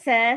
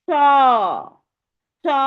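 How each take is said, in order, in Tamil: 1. 's' ஒலி மெல்லியதாக, இலேசாக இருக்கும். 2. 's' ஒலி ஆழமாக, முழு வாயுடன் இருக்கும். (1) "ஜ ச சொன்ன மாதிரி சொல்லாம" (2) "வாய ஓவல் ஷேப்பா மாத்தி சத்தம் மேல் நோக்கி கொண்டுட்டு போகணும்"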